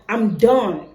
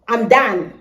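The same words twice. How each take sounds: First: It is said in a Nigerian accent. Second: It is said in a Kenyan accent.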